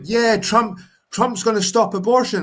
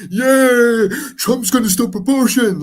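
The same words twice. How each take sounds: First: High, loud mock of Trump fans; mocking Trump supporter. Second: Much higher, louder mock cheer; mocking Trump supporter. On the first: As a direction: parody the cheering Trump supporter. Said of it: "everyone's like". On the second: Mocking people who cheer Trump ending abortion in a high, loud voice. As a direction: ham up the gloating Trump fan. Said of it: "these people are like".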